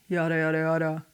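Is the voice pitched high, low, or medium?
low. It is at a lower pitch than normal. "Or lower"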